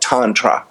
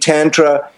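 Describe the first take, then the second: First: The word is said with an Indian pronunciation. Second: The word is said with an American pronunciation. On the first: This is how it is said in India. "If you study tantric Buddhism or tantra from India, they call it tantra" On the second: This is how it is said in the West. "I think the American way may be tantra"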